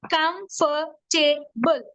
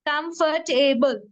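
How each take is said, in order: First: "Comfortable" slowly as com, for, ta, ble; four separate beats on "Comfortable", with gaps; syllable by syllable. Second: "comfortable" in four clear syllables, joined up; syllables run together. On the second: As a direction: say every syllable of "comfortable" without long gaps. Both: Shown as a demonstration. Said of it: "comfortable has four syllables".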